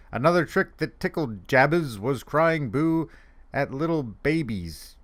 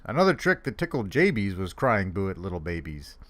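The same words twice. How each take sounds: First: Said in the usual way. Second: "Jabies" with a long A and an ee in the last syllable; rhyming name pronunciation. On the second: Real, not acted. Reader correcting the name, "Jabies" said to rhyme with babies. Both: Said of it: "I guess his name is Jabies".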